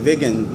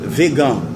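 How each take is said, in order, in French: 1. Le mot se prononce à l'anglaise. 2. Le mot se prononce à la française. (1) "En anglais, je crois que c'est vegan" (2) "on vous dit vegan"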